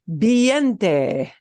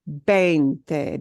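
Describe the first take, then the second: First: The first syllable does not sound like 'vein'. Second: The first syllable sounds like 'vein'. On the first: The speaker calls it wrong. "let's say I made a mistake" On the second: The speaker calls it right. "it sounds like vein"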